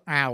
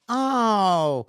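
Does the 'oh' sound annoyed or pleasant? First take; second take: annoyed; pleasant. First: The 'oh' sounds annoyed, as if there's a problem. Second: The 'oh' sounds pleasant, with no problem implied.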